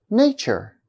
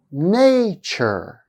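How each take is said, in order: First: Said in the usual way. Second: "Nature" drawn out, first syllable long and high; slow, stressed first syllable. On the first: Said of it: "I'll say each of them twice". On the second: Shown as a demonstration. Teacher showing first-syllable stress to learners, slow demo. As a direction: stretch the first syllable of "Nature", let the second fall. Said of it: "I'll say each of them twice and slowly".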